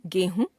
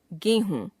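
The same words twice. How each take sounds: First: गेहूं ending on short उ, rising; wrong pronunciation. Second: Said in the usual way. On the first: Shown as a demonstration. Teacher showing a common error, गेहूं with short last vowel. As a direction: cut हूं short to हुं in गेहूं. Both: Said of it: "अशुद्ध".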